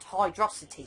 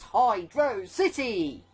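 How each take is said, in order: First: It is said as one word, like velocity. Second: It is said as two separate words. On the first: The speaker calls it wrong. "like velocity" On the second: The speaker calls it right. "Words separated"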